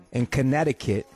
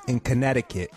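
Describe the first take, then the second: No difference in how they are said.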